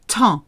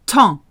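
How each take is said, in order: Both takes have the same delivery.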